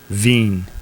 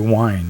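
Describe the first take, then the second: First: It is said with a v and long ee. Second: It is said like the English word wine. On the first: The speaker calls it right. "I looked it up, and it's it's veen" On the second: The speaker calls it wrong. "that's got to be, got to be wine, right?"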